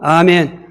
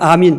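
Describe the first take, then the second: First: The second vowel sounds like 'eh'. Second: The second vowel sounds like 'ee'. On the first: This is the original form of the word. "원문대로" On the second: This is how English speakers say it. "영어 발음은"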